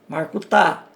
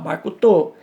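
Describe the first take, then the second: First: It is said with an Eastern Aramaic pronunciation. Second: It is said with a Western Aramaic pronunciation.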